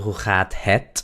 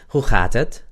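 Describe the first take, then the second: First: The last word has a full, clear e. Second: The last word has a reduced schwa vowel. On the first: The speaker calls it wrong. "no se dice hoe gaat het" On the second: The speaker calls it right. "cuando se habla rápido, esa E se convierte en muda"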